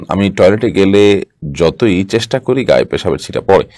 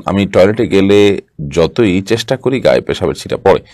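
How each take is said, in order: No difference in how they are said.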